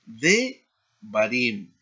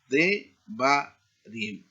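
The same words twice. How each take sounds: First: Said in the usual way. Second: "de barim" spelled out slowly, each syllable apart; slow, deliberate "de barim" for students. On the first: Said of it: "Aquí tenemos la reducción propretónica porque hay tres sílabas". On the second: Shown as a demonstration. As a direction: break "de barim" into its three syllables. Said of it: "porque hay tres sílabas".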